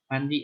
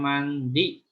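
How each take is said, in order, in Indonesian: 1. D-nya diucapkan ringan, hampir tidak terdengar. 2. D-nya diucapkan berat dan tebal. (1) "D-nya itu agak tipis, malah nggak kedengeran" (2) "D-nya itu tebal"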